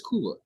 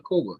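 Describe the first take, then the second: First: Couva said KOO-va, long oo and a v; corrected pronunciation. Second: Couva said KOH-ba, with an oh; others' pronunciation. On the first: Shown as a demonstration. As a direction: say Couva as KOO-vuh, falling at the end. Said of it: "but it's Couva". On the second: Retold or imitated. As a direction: say Couva as KOH-buh, as some people do. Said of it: "I heard some people call it Couva".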